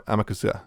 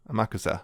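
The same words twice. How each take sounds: First: Amakusa said as AM-a-ku-sa, stress on the first syllable; first try at the name. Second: Amakusa said as a-MA-ku-sa, stress moved to the second syllable, a little softer; corrected name. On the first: Naming the main character to his co-host, a first tentative try. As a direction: say Amakusa leading with AM. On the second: Correcting himself on the character's name for his co-host, softer. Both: Shown as a demonstration.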